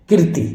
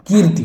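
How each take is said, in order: First: कीर्ति with a short first vowel, "kir-ti"; short i before the r in कीर्ति; wrong pronunciation shown. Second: कीर्ति with a long "kee"; correct pronunciation shown. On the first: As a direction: say कीर्ति as clipped "kir-tee". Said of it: "कीर्ति कभी नहीं होती". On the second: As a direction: say कीर्ति as "keer-ti". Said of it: "कीर्ति होती है". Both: Shown as a demonstration.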